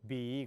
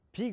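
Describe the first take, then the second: First: Low, long voiced "beee" for 비; American-style 비. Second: 비 short and higher, light airy b; Korean 비. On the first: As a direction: stretch 비 low with a heavy b. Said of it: "미국 사람들 그렇게 못해요". (미국식으로 낮고 길게 끄는 비) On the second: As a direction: say 비 quickly the Korean way. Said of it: "비 그러잖아요". (한국식으로 짧게 발음한 비) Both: Shown as a demonstration.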